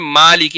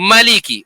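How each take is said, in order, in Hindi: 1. पहला स्वर खींचकर लंबा बोला जाता है। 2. पहला स्वर छोटा है, खींचा नहीं जाता। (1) "हम मा साउंड को जो है स्ट्रेच करते हैं" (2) "वो उस माँ के साउंड को स्ट्रेच नहीं करेंगे"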